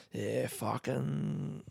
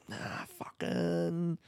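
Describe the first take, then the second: First: Slow, soft Aussie fucking, stretched out; Yeah, fucking said slowly like a laid-back Aussie bloke; drawled Australian swear. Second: Slow, soft Aussie fucking pitched higher; Nah, fucking stretched out, Aussie bloke voice lifted up; higher Australian swear. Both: Pretend. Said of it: "doing a voice of an Australian man swearing".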